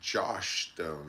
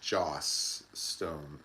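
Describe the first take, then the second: First: The first name ends with an 'sh' sound. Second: The first name ends with an 's' sound. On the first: The speaker calls it wrong. "I always feel like I'm like I have a lisp when I say her name. It's not [name]" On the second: The speaker calls it right. "it's [name]"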